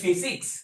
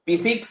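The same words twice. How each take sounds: First: The word begins with an f sound. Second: The word begins with a p sound. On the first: The speaker calls it right. "எந்த ஃபி ஃபி ஃபி பிசிக்ஸ்" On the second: The speaker calls it wrong. "எந்த பிசிக்ஸ் அல்ல"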